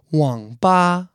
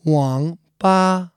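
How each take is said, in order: First: 网吧 with dipping third tone then flat first tone; tone demo. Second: 网吧 again, dipping then flat; tone demo repeated. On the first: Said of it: "网吧is third tone, the falling rising tone". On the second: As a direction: repeat 网吧 with careful tones. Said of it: "One more time, guys". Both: Shown as a demonstration.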